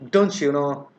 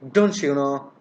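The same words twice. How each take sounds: The two takes are said the same way.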